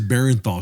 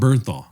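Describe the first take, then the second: First: The name is said as 'Barenthal'. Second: The name is said as 'Bernthal'. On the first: The speaker calls it wrong. "I don't want to hear this Barenthal shit" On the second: The speaker calls it right. "you need to say it correctly"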